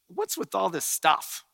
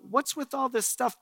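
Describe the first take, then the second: First: It sounds like an annoyed, dismissive question. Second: It sounds like a sincere, curious question.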